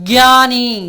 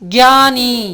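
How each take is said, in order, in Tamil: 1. இந்த வார்த்தை 'gy' ஒலியில் தொடங்குகிறது. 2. இந்த வார்த்தை 'gy' ஒலியில் தொடங்குகிறது.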